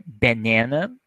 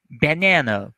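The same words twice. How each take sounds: First: "banana" with English vowels, rising at the end. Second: "banana" as /bəˈnænə/, not the Portuguese vowels; English banana. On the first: ("banana" pronunciado em inglês) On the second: ("banana" com a pronúncia do inglês) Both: Shown as a demonstration. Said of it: "essa é a pronúncia".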